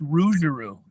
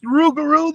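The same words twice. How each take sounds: First: "Rougarou" with a soft zh for the g; French-style "Rougarou", soft zh; French pronunciation. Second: "Rougarou" with a hard g in the middle; English-style "Rougarou", hard g; hard G pronunciation. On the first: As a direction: say "Rougarou" as ROO-zhuh-roo. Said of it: "say that word in French". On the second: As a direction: say "Rougarou" as ROO-guh-roo. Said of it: "is it pronounced Rougarou". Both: Shown as a demonstration.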